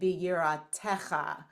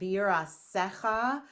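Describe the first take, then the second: First: The tav is pronounced as a T sound. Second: The tav is pronounced as an S sound.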